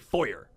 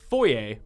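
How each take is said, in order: First: The word is said the American way. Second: The word is said the original, non-American way. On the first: "but all Americans say foyer" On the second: "it's pronounced foyer"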